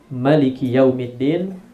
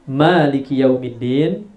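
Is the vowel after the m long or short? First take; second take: short; long. First: The vowel after the m is short. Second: The vowel after the m is long.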